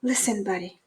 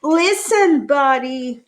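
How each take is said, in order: First: Whispering. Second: Loud, high call of his name; yelling. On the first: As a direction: hush it close to his ear. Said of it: "They tried whispering". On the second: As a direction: shout it to get his attention. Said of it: "His parents tried yelling". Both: Acted.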